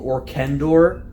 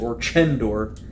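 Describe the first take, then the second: First: The middle consonant is a hard k sound. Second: The middle consonant is a ch sound. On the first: It sounds more like a fantasy name. "I'm so tempted to call him Orkendor because it sounds so much more fantasy" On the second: It is how the name is officially pronounced. "I guess they've pronounced it Orchendor"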